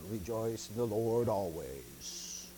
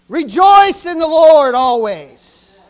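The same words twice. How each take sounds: First: It is said flatly, without excitement. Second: It is said excitedly, as an exclamation.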